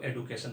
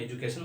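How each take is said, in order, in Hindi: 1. दूसरी ध्वनि 'd' की है। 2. दूसरी ध्वनि 'j' की है। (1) "साउथ इंडिया में इसको एडुकेशन बोलते हैं" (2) "नॉर्थ इंडिया में एजुकेशन बोला जाता है"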